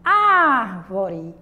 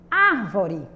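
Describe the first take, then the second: First: "Árvore" with a long, forceful "Ár"; stress on ÁR. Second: Said in the usual way. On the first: Shown as a demonstration. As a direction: stretch and punch the first syllable of "Árvore". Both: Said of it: "qual é a mais forte".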